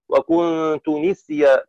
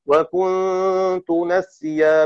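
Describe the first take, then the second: First: نسيا with the nun said with a kasra, nisya, slowly; وكنت نسيا with kasra. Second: نسيا with the nun said with a fatha, nasya, slowly; وكنت نسيا with fath. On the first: Teacher demonstrates Shu'ba's reading for students, nisya with kasra. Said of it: "بكسرها نسي". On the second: Teacher demonstrates Hafs's reading for students, nasya with fatha. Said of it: "وكنت نسيا بفتح النون". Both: Shown as a demonstration.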